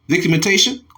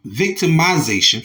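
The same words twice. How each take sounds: First: Victimization stumbled as vik-uh-men-TAY-shun; mispronounced word. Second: Said in the usual way. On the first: Real, not acted. Reading the article aloud, tripping over victimization. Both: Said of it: "forgive me".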